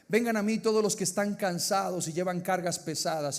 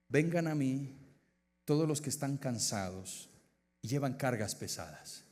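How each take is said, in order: First: It is read at a normal, quicker pace. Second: It is read at a slower, unhurried pace.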